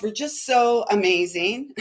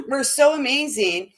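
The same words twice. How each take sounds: First: Said in the usual way. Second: Said through a laugh; amused, giggling through the words. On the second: Real, not acted. Repeats line, then laughs.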